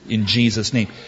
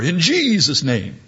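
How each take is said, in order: First: The voice is quick and casual, without trembling. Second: The voice trembles with a solemn quiver. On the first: The name is treated as a routine sign-off. "like a sign-off in prayer" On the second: The name is treated as a magical incantation. "we're to say it with sort of a quiver"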